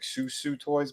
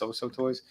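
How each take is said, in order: First: The name is said with an 'oo' vowel. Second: The name is said with an 'oh' vowel. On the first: The speaker calls it wrong. "it looks like Susu Toys" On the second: The speaker calls it right. "but it's So-So Toys"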